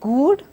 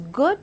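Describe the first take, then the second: First: The vowel is said long. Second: The vowel is said short. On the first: The speaker calls it wrong. "not good, because I'm not giving a long stress to it" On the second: The speaker calls it right. "I have a short oo sound, hence it is good"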